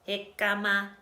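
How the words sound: It is said in a robot voice.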